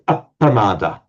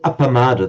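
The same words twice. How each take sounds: First: The p is a held double consonant. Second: The p is a single short consonant. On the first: The speaker calls it right. "they say apamada" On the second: The speaker calls it wrong. "they don't say apamada"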